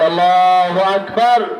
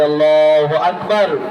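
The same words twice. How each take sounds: First: It is shouted even more loudly. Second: It is shouted loudly.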